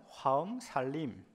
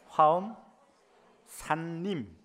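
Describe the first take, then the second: First: The second word is said quickly as sallim. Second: The second word is said clearly as sanrim. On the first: "빨리 하면" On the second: "발음을 똑띠 단디 하십시오"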